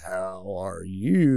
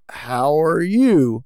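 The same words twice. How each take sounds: First: It is said in a suggestive, creepy way. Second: It is said in a plain, neutral way.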